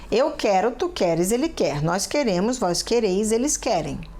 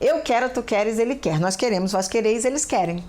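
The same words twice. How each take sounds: First: It is said somewhat faster than normal. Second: It is said very fast.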